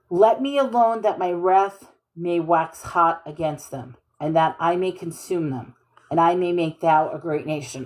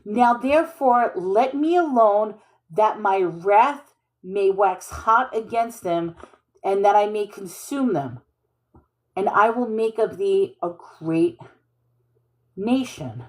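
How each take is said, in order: First: A darker, angrier reading; God's anger. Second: Said in the usual way. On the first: Shown as a demonstration. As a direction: let the wrath simmer low and heavy. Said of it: "Okay, so this is anger". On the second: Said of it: "so this is anger".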